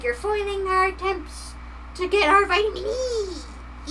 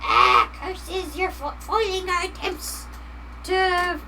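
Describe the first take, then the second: First: Gremlin voice. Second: High, grumbling cartoon villain; gremlin voice. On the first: Pretend. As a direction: whine it like a foiled little gremlin. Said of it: "they're like". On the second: Gremlins complaining to the streamer, high villain grumble. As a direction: curse like a thwarted little gremlin. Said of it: "they're just like".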